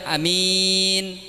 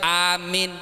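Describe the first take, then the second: First: "amin" with a short a and a long min; quick first syllable of "amin", stretch the last; "amin", short start, drawn-out ending. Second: "amin" with a long a and a shorter min; "amin", drawn-out start, short ending. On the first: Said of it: "Pandek lanceng". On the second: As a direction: stretch the first syllable of "amin", shorten the last. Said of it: "Lanceng pandek". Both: Shown as a demonstration.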